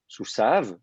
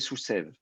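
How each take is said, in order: First: The last vowel sounds like 'a'. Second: The last vowel sounds like 'e'. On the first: This is the reading the vowel marks give. "Les massorètes prononcent Soussav" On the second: This is the reading the written letters imply. "le Yod indique qu'il faut prononcer Soussev"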